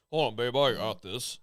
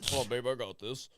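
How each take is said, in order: First: A hint of macho tough guy; lightly voiced cocky macho man; Macho Man impression. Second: Softer macho tough guy; lightly voiced cocky strut; macho swagger. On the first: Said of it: "Like Macho Man over here". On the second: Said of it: "you should, like, walk like this".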